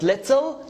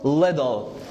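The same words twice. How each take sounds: First: The middle consonant is a clear T sound. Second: The middle consonant is a quick D sound. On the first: The speaker calls it wrong. "not little" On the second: The speaker calls it right. "it's a fast D"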